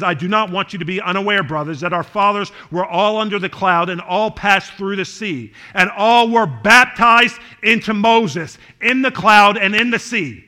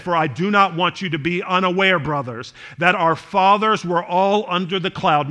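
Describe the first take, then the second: First: Swelling louder on baptized, slowed down; preacher reading the verse a second time with growing force; scripture read with building force. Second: Said in the usual way. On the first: Shown as a demonstration. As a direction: read it again, rising and louder toward baptized. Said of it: "He says". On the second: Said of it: "and he said".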